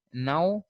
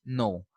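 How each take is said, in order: First: NOW as British "no", with an open gliding vowel; British pronunciation. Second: NO with a rounded American O; American pronunciation. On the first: Teacher contrasting no with the American form, British pronunciation. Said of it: "and American people say no". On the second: Teacher showing how American people say no, American pronunciation. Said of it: "American people say no". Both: Shown as a demonstration.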